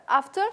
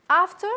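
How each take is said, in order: Both takes have the same delivery.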